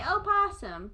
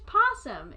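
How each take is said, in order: First: An extra vowel sound comes before 'possum'. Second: The word starts straight on the 'p' sound. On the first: The speaker calls it wrong. "backwater hicks like to pronounce things uh, strangely. And so they say" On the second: The speaker calls it right. "But it's just possum"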